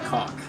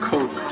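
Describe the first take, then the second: First: The vowel is a short 'ah' sound. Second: The vowel is a long 'oh' sound. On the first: "He would pronounce Coke like cock" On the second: "pronounced Coke, like the drink Coca Cola"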